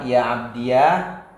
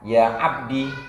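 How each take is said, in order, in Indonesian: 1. Kata ini berakhir dengan suku kata iya. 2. Kata ini berakhir dengan i pendek. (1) "menetapkan ya mutakalim dibaca fathah" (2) "membuang ya mutakallim"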